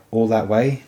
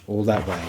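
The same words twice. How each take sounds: First: A mild astonished rise on way; lightly voiced disbelief, lifting at the end. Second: A level affirming echo, falling on that; lightly voiced firm confirmation. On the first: Jory, astonished at the distance, asking back. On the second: Ned to Jory, a calm settled affirmation. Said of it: "Ned affirmed".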